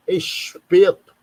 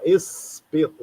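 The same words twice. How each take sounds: First: Espeto with the S turned into a slow, louder carioca sh, like eshpeto; Rio-style S. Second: Said in the usual way. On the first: Shown as a demonstration. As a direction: say espeto slowly and loudly, hissing the S as sh. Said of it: "por causa do S". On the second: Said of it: "o S tem uma outra pronúncia".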